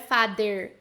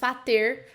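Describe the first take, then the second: First: The middle consonant is a d sound. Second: The middle consonant is a t sound. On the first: "não é father, father com D" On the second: "muito menos fater com som de T"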